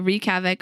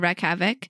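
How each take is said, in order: First: The first word has a long 'ee' vowel. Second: The first word has a short 'e' vowel. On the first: "Wreak havoc or wreck havoc?" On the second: "Wreak havoc or wreck havoc?"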